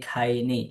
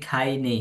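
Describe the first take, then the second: The two takes are said the same way.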